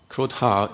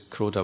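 First: The d sound is aspirated. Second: The d sound is unaspirated. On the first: The word means anger. "if you aspirate the D" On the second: The word means the boar. "without an aspirated D"

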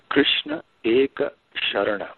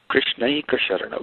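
First: Krishna and Eka are said as separate words. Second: Krishna and Eka merge into one word, Krishnaika.

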